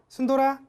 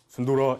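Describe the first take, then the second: First: It is said in a high, bright voice. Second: It is said in a low, deep voice.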